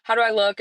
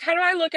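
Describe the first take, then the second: First: Said in the usual way. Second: High-pitched friend voice; imitated eager question in a raised voice. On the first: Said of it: "I'm like". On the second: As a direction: voice the friend asking, pitched well up. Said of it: "and they're like".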